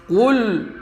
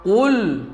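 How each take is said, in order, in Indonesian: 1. Bunyi l di akhir terdengar tebal dan gelap. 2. Bunyi l di akhir terdengar tebal dan gelap.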